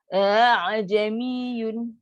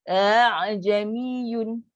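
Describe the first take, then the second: The two takes are said the same way.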